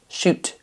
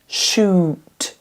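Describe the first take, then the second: First: The vowel is cut short. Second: The vowel is held long. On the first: The speaker calls it wrong. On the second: The speaker calls it right.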